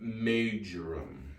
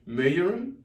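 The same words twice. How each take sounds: First: The middle consonant sounds like a J. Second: The middle consonant sounds like a Y. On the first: "most of us pronounce it majoram. Majoram because of the uh, J" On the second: "the J is supposedly kind of like a Y in some languages"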